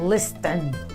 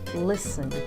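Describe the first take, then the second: First: The T sound is pronounced. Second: The T sound is silent. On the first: The speaker calls it wrong. "ao invés de falar listen" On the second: The speaker calls it right. "soa muito mais suave, suave quando eu digo listen"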